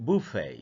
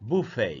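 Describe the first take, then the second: Both takes have the same delivery.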